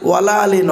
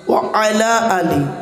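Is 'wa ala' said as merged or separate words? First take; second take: merged; separate. First: The words wa and ala are run together. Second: The words wa and ala are said separately. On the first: The speaker calls it wrong. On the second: The speaker calls it right.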